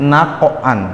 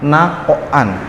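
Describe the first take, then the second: First: The q sound is released with an echoing bounce. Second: The same.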